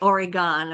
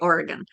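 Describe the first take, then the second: First: It uses a non-local pronunciation of the name. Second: It uses the local Oregon pronunciation of the name. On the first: "I don't say Oregon" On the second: "I say Oregon because that's how they say it"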